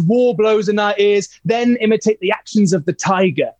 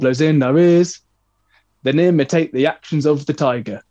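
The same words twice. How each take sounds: First: It is spoken with lively, energetic rhythm. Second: It is spoken in a flat, dull way. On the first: The speaker calls it right. "It sounded like, oh, something's happening. This is exciting" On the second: The speaker calls it wrong. "How boring is that?"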